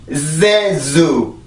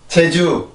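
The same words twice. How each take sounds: First: It starts with a buzzing English z sound. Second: It starts with the Korean j sound. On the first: "이 발음이 만약에 Z 발음이 들어가야 되면" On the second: "한국어로 제주를 해봅시다"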